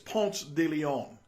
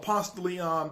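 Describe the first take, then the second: First: The name has a careful, standard pronunciation. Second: The name has a local, casual pronunciation. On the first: This is the official, proper name. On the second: This is how people in the neighborhood say it.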